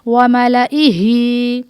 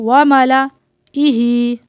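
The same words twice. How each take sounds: First: The word is read smoothly without a break. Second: The word is broken by a pause midway.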